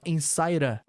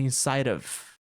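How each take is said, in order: First: The last word is reduced to a short vowel. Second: The last word is said fully, ending in v. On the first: "nota como ele fala inside a" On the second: "ao invés de inside of"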